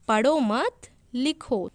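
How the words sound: There is a pause after the second word. Do not read now, write instead. "अल्प विराम चिन्ह है वो मत के आगे आया, तो मैंने कैसे बोला?"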